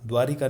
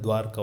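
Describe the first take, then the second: First: An extra i vowel is heard between r and k. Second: No vowel is heard between r and k. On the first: The speaker calls it wrong. "नहीं होता है" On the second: The speaker calls it right. "होता है"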